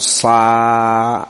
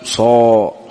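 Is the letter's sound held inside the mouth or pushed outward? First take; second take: pushed outward; held inside. First: The sound is pushed out of the mouth. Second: The sound is held resonating inside the mouth. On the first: The speaker calls it wrong. "ما تقول صا تخرج الصوت" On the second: The speaker calls it right. "تجعله منحصر في الفم"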